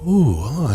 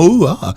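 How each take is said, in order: First: It is said more quietly. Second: It is said louder.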